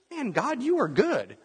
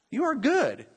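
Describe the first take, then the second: First: Much higher, exclaiming thanks to God; joyful praise. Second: Stronger joyful praise. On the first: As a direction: burst out in amazed gratitude. Praising God after answered prayer. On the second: Repeats praise to God. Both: Retold or imitated.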